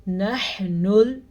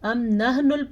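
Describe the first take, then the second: First: نَحْنُ with a breathy throat ha; clear ha. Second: نَحْنُ with a plain h; wrong recitation. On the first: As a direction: push air from the throat on the ح in نَحْنُ. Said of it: "کیا پڑھیں گے ہم اس کو". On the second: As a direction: say نَحْنُ with a flat h sound. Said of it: "پڑھیں گے تو وہی بڑی غلطی". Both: Shown as a demonstration.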